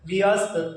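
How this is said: It is said slowly, split into two parts.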